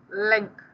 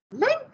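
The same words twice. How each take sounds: First: "Link" said as a simple answer; plain statement of name. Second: "Link" shooting up high as a question; questioning echo. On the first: Boy telling a girl his name, plain statement. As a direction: state "Link" at usual pitch, no question. Gives name in voiced dialogue. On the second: Girl querying an unusual name, high questioning echo. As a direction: echo "Link" with a big rising lift. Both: A narrator's reading.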